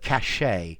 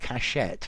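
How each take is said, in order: First: The word ends without any T sound. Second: The word ends with a clear T sound. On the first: The speaker calls it right. "this T at the end is silent" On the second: The speaker calls it wrong. "not cachette"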